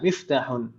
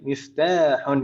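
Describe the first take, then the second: First: The vowel after the t is short. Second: The vowel after the t is long. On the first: The speaker calls it wrong. "Jangan sampai dibaca pendek. Jangan sampai dibaca miftahun" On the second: The speaker calls it right. "jadi taknya panjang"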